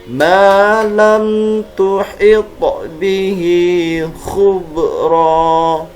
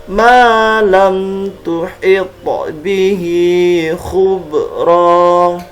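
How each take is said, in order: No difference in how they are said.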